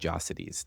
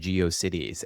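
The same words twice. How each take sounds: First: Geo blends into the rest as one word. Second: Geo is said as a separate split-off part. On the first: The name is heard as one new word. "forming a new thing, a Geocities" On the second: The name is heard as two joined words. "Geo doesn't like split up like GeoCities"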